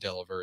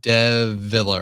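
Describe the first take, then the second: First: The L sound comes before the V sound. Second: The L sound comes after the V sound. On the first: The speaker calls it wrong. "It's not Deliver" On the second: The speaker calls it right. "It's uh Deviller"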